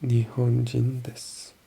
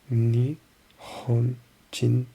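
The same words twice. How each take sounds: First: Said in the usual way. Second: Very slow Nihonjin, each sound stretched; drawn-out practice. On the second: Shown as a demonstration. Learner slowly sounding out the app word.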